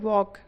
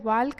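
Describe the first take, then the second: First: The L sound is silent. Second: The L sound is pronounced. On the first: The speaker calls it right. "इसको पढ़ेंगे वॉक, एल क्या है, silent रहता है" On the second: The speaker calls it wrong. "वाल्क नहीं पढ़ेंगे"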